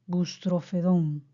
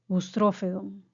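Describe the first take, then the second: First: The stress is on the fourth syllable. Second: The stress is on the second syllable. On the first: "Como palabra aguda" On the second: "Como palabra esdrújula"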